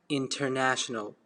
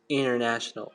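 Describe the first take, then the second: First: The t after the n is pronounced. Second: The t after the n is dropped. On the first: The speaker calls it wrong. "You don't have to say international. In American, it's going to sound awkward" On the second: The speaker calls it right. "The right way to say it is international"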